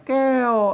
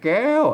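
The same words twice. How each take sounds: First: The word carries the special tho tone. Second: The word carries the tri tone. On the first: "เสียงโทพิเศษอ่ะแก้วก็ใส่อันเสียงจะจุดไว้" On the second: "ใส่ไม่ตีอ่ะเสียงตีเห็นไหม"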